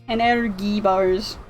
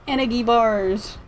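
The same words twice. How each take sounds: Both takes have the same delivery.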